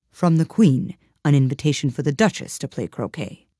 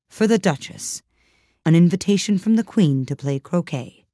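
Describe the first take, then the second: First: Mildly solemn, measured announcement. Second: Mildly solemn, formal announcement. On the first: Frog footman repeats the invitation reordered, mildly solemn. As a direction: repeat it with understated ceremony. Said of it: "in the same solemn tone". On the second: Fish footman hands over the Queen's invitation, mildly solemn. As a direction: deliver it with a touch of ceremony. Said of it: "saying in a solemn tone". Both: A narrator's reading.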